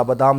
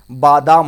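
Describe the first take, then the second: First: बादाम with a short first a, ba-daam; wrong short vowel. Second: बादाम loud, with a long first aa; correct long vowel. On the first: Teacher quoting the misspelling, short ba in बादाम. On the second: Teacher giving students the right word, loud long baa in बादाम. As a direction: hit बादाम hard as baa-daam. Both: Shown as a demonstration. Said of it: "बादाम नहीं होता है".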